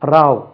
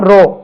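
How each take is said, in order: First: The vowel sounds like the one in 'cow'. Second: The vowel sounds like the one in 'go'. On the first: It means a quarrel or fight. "ராவ் என்று உச்சரித்தால் சண்டை சச்சரவு" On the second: It means a line, or rowing a boat. "இப்படி சொன்னா ரோ, ரோவ் வரிசை"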